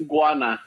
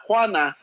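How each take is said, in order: First: "Guana" with a gw onset, as in iguana; corrected pronunciation. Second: "Juana" starting with a w sound, no hard g; wrong pronunciation shown. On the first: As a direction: stress the first syllable of "Guana", g sounded. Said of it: "like i-, iguana". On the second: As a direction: say "Juana" as the rejected version. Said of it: "Not Juana". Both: Shown as a demonstration.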